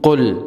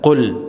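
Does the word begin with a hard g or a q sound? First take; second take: q sound; q sound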